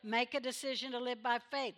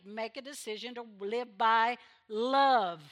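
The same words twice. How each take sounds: First: Said in the usual way. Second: Love pushed out loud at the end; stress on love. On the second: Shown as a demonstration. Preacher urging the church to live by love, pressing love. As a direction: lean hard on the word love.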